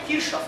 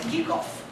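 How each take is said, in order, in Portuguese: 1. O nome é pronunciado com sons de estilo português. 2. O nome é pronunciado com sons de estilo alemão. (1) "o nome do cara nem é Kirchhoff" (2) "é Kirchhoff, que é alemão"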